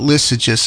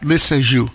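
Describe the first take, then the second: First: The name is said with an anglicized pronunciation. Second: The name is said with a French pronunciation. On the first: The speaker calls it wrong. "It's not Lissajous" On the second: The speaker calls it right. "That's right, Lissajous"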